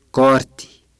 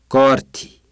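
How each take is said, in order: Both takes have the same delivery.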